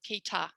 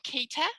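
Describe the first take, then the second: First: The final vowel is a full vowel like cup. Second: The final vowel is a full vowel like cat. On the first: "Let's try it with a, like in um, mm. cup" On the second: "let me say it with the at"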